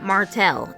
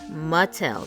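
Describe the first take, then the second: First: The name has an R sound before the T. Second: The name has no R sound before the T. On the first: The speaker calls it wrong. "it's not Martell" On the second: The speaker calls it right. "There ain't no R in there"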